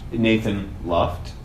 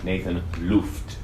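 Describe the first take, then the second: First: The surname is pronounced the English way. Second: The surname is pronounced the German way.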